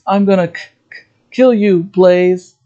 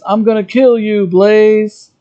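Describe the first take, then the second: First: The line is said with a stammer on kill. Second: The line is said smoothly, without stammering.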